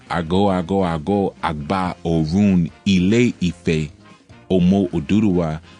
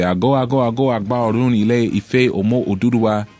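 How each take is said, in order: First: It is said at a slower pace. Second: It is said at a quicker pace.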